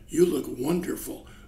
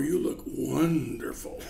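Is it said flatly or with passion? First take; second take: flatly; with passion. First: It is said flatly, without passion. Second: It is said passionately, with strong consonants.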